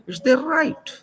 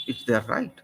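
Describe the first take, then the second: First: High, loud and insistent; emphatic insistence. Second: Said in the usual way. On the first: Real, not acted. Insisting to the listener on their right, loud and emphatic. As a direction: drive the point home hard.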